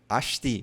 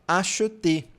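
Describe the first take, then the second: First: The word is said quickly and clipped. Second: The word is said slowly and carefully. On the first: This is how it sounds in everyday speech. "no cotidiano ... bem rápido" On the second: This is how it sounds when reading aloud. "quando a gente está falando bem devagar em uma leitura"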